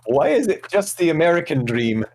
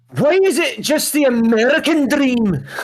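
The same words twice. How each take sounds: First: It is read in a plain, ordinary accent. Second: It is read in a put-on Scottish accent.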